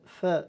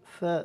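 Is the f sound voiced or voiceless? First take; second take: voiceless; voiceless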